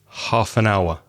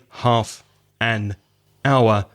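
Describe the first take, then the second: First: The three words run together as one unit. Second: The three words are said separately, not linked. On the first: The speaker calls it right. "those three words go together" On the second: The speaker calls it wrong. "I don't say half an hour"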